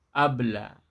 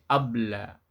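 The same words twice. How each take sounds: The two takes are said the same way.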